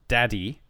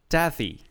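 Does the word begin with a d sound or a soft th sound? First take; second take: d sound; soft th. First: The word begins with a hard d sound. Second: The word begins with a soft th sound. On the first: The speaker calls it wrong. "me saying it that it was daddy. It's not" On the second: The speaker calls it right. "the sound that symbol makes is a soft TH sound"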